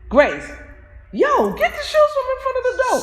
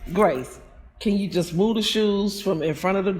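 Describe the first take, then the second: First: It is said in a mad, irritated tone. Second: It is said in a calm, cool tone.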